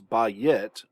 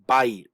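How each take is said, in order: First: The word is split into two separate syllables. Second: The vowels glide together into one syllable. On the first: The speaker calls it wrong. "we don't want to pronounce this as ba-yit, keeping two syllables" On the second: The speaker calls it right. "We want to pronounce this as bayit, bayit, one syllable"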